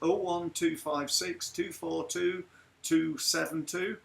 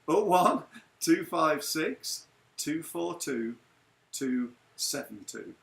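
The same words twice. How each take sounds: First: It is said quickly. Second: It is said slowly.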